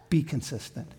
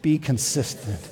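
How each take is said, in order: First: It is said at a normal, softer volume. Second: It is said louder, with conviction.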